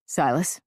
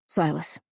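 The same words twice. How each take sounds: First: Silas? asked with a rising tune; uneasy, questioning call of his name; tentative call. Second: Said in the usual way. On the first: Acted. Narrator calls out to Silas.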